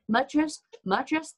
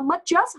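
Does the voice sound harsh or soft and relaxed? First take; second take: soft; harsh. First: It is said softly with a relaxed mouth. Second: It is said harshly with a tense mouth. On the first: The speaker calls it right. "thả lỏng cái miệng ra" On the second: The speaker calls it wrong. "không có nói vậy"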